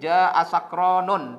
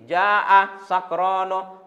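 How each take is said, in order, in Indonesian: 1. Kata terakhir berakhir dengan tambahan n. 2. Kata terakhir berakhir tanpa bunyi sengau n. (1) "tidak boleh" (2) "Cuman dhammanya tidak boleh ditanwin"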